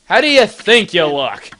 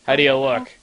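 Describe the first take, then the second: First: Higher, louder push on THINK; stress on THINK. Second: Said in the usual way. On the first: Shown as a demonstration. Question repeated with new emphasis.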